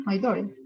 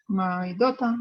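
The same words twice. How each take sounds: First: Daughter said as doder, soft d-like t and r at the end, falling; American-style daughter. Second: Daughter said as dota, t clear, no r, rising; crisp British daughter, no r; British-style daughter. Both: Shown as a demonstration. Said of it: "hay palabras que sí varía muchísimo".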